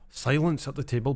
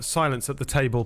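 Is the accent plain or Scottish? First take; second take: Scottish; plain. First: It is said in a Scottish accent. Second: It is said in a plain, unmarked accent.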